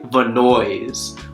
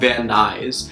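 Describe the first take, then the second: First: The name ends sounding like 'noise'. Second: The name ends sounding like 'nice'. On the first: The speaker calls it wrong. "I was pronouncing this one city Vanoise" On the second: The speaker calls it right. "it's actually called Van Nuys"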